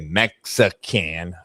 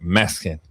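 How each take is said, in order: First: The syllables are said clearly and separately. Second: The syllables roll together into one quick word. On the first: This is the standard way of saying it. "We don't say Mexican" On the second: This is how it is said in the neighborhood. "it's just one word. Like it rolls"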